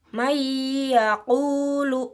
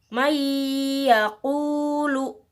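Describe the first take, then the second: The two takes are said the same way.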